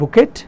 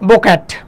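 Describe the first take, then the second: First: It ends with a clear final t sound. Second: It has an o and a flat a, with a final t. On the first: "আমরা বাংলাদেশের মানুষজন বলি বুকেট" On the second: "exactly Indian"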